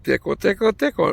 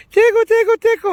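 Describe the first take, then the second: First: Lightly mimicked nurse, raised pitch; a playful higher sing-out, only mildly put on; imitating nurse. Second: Very high, loud mock tickle voice; imitating nurse. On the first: Nurse swabbing his nose, mildly imitated tickle-tickle voice. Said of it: "fucking freaks me out when she says that". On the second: Nurse swabbing the other side, squeaky exaggerated imitation. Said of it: "She does the same thing".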